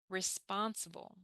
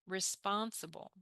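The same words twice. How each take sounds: No difference in how they are said.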